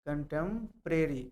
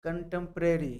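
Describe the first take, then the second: First: contemporary said slowly, syllable by syllable; slow careful repeat. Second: Said in the usual way. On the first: Shown as a demonstration. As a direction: draw out contemporary slowly so students catch each sound. (Contemporary को धीरे धीरे साफ़ बोलना) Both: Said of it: "contemporary यानी समकालीन".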